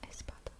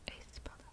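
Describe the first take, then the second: No difference in how they are said.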